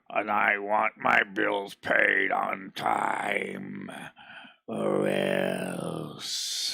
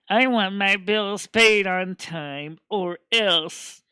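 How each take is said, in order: First: It is said in a monster-like villain voice. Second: It is said in a different character voice. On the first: "sounding like some monster" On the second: "Savannah's voice is a little more like more like this"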